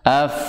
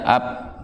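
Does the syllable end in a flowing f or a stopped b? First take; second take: flowing f; stopped b. First: The syllable ends in a flowing f sound. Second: The syllable ends in a stopped b sound. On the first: The speaker calls it right. "bunyinya mengalir lebih panjang" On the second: The speaker calls it wrong. "jangan dibaca ab"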